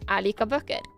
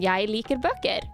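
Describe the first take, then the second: First: It is said in a Northern Norwegian accent. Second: It is said in standard Bokmål Norwegian.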